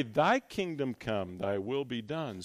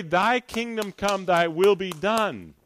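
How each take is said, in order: First: Lower, softer, reverent prayer line; hushed prayer. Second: Said in the usual way. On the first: Shown as a demonstration. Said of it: "We pray". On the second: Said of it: "When you pray".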